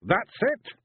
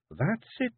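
First: High, louder Scots warrior, rising, amazed; Rob. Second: High Scots wife, rising, approving; wife approving his letters; Jeanie. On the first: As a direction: marvel at it, wee warrior. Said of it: "he said". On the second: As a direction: confirm it gently, high. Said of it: "she said at last". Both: A narrator's reading.

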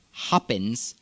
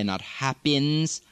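First: Happens with a short sharp E; Arabic accent happens. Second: Happens with a slow drawn diphthong; the wrong, drawn-out happens. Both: Shown as a demonstration.

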